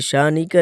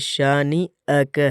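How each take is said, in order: First: The middle glottal catch is left out. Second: A clear glottal catch is heard mid-word. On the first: The speaker calls it wrong. "ये शानी का नहीं" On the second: The speaker calls it right. "ये शानी अ का है"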